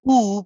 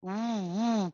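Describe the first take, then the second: First: A plain rounded vowel with no lip pressure. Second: A w sound with pressure on the lips. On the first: The speaker calls it wrong. "I can circle the lips and say ooh, but this is incorrect" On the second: The speaker calls it right. "You have to say woo woo woo"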